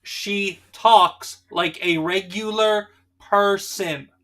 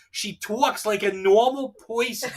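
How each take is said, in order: First: Very slow, "regular person" fully pronounced with every R; deadpan slow diction, each word of "talks like a regular person" set apart; translator's enunciation. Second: Slow, hammed-up Jersey accent; teasing Jersey imitation, vowels stretched; mock Jersey accent. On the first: Acted. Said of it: "I am your translator for people sometimes". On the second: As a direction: mimic her Jersey accent, "talks" as "twawks", "person" as "poyson". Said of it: "the crazy jersey wife".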